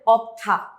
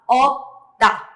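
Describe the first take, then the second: First: "opta" with an audible stop and puffed "ta"; wrong pronunciation. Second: "opta" as two separate syllables, hard unpuffed "ta"; correct pronunciation. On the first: Teacher shows what it must not be, wrong pronunciation. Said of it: "está mal pronunciada". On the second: Teacher shows how it must be pronounced, correct pronunciation. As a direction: model "opta" with a tight, unaspirated t. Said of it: "esta palabra debe ser pronunciada". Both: Shown as a demonstration.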